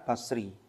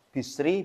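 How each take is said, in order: First: The first vowel is an 'a' sound. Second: The first vowel is an 'i' sound. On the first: "Bisa dibaca fathah" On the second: "bisa dibaca kasroh"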